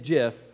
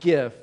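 First: The word begins with a soft j sound. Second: The word begins with a hard g sound. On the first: The speaker calls it right. "And it is GIF" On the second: The speaker calls it wrong. "It's not GIF, all right? ... If you're on the gift side, you're just wrong"

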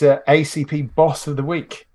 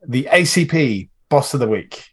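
First: It is said in a plain, calm voice. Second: It is said with lively, vigorous energy.

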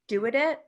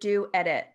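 First: The name is blurred together into one word. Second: The name is said as two separate words. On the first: The speaker calls it wrong. "I always blur it into one word" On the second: The speaker calls it right. "or is it do edit?"

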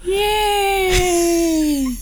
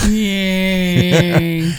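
First: It is said with more enthusiasm. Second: It is said with little enthusiasm.

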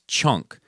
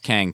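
First: The name sounds like chunk, with a soft start. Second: The name sounds like kang, with a hard K. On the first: The speaker calls it right. "is pronounced as chunk without enunciating the K" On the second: The speaker calls it wrong. "a Kang Toys is not pronounced Kang Toys"

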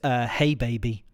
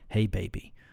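First: It is read in the speaker's ordinary voice. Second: It is read in a put-on character voice.

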